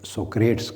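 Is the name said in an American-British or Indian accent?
Indian. The name ends in a short 'tes' sound. "Indian accent में सोक्रेट्स कहते हैं"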